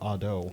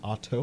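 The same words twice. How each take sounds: First: The middle consonant is a soft D sound. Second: The middle consonant is a clear T sound. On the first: "or a D?" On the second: "is it a T"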